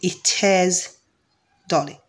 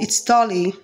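First: 'It is' is said as two full words. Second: 'It is' is contracted to 'it's'. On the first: This is the clearer, basic way of speaking. "instead of saying it is Dolly" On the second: This is the quick, casual way of speaking. "when I want to use rapid English"

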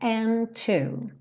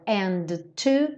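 First: The d merges into the t. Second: The d and t are released separately. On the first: The speaker calls it right. "e sim and to" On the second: The speaker calls it wrong. "Eu não tenho dois ataques aqui, então eu não falo and to"

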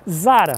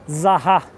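First: It is said with a Brazilian Portuguese pronunciation. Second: It is said with a French pronunciation.

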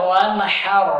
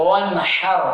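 Both takes have the same delivery.

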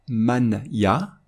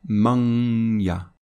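First: The n is pronounced fully before the ya. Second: The n becomes a held nasal sound. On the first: The speaker calls it wrong. "on ne va pas prononcer" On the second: The speaker calls it right. "on va prononcer"

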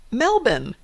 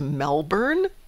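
First: The r sound is dropped. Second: The r sound is clearly pronounced.

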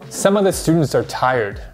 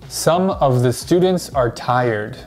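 First: 'Some of the' is reduced and linked together. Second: 'Some of the' is said as separate, full words. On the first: The speaker calls it right. "But native speakers actually say this" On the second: The speaker calls it wrong. "Many English learners will say this"

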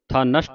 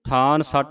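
First: The n starts the second word, 'nasht'. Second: The n joins the first word, then 'satt'. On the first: The speaker calls it right. "ਥਾਂ ਨਸ਼ਟ ਉਚਾਰਨ ਕਰਨਾ ਹੈ" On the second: The speaker calls it wrong. "ਥਾਨ ਸੱਟ ਉਚਾਰ ਨਹੀਂ ਕਰਨਾ"

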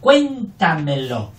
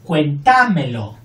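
First: The stress falls on the first syllable. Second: The stress falls on a later syllable. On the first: The speaker calls it right. "No, cuéntamelo" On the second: The speaker calls it wrong. "No decimos cuéntamelo"

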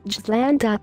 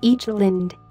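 First: The word begins with a J sound. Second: The word begins with a vowel sound. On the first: "in the worst case, ... The letter I pronounced as J" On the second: "island will not be read"

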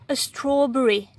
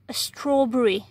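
No difference in how they are said.

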